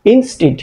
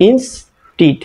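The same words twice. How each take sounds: First: "ইনস্টিড" joined up as one word; said together. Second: "ইনস্টিড" split as ইনস, pause, টিড; broken into parts. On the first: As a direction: run both halves of "ইনস্টিড" together. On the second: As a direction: sound out "ইনস্টিড" in two separated chunks. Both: Shown as a demonstration. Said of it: "একসাথে উচ্চারণ করলে".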